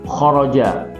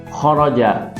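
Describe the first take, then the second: No difference in how they are said.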